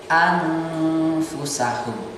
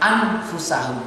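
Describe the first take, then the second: First: The n is hidden in a held nasal sound. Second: The n is pronounced clearly with no nasal hold. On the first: The speaker calls it right. "harus ada jedanya" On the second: The speaker calls it wrong. "Tidak boleh langsung membaca seperti idhar"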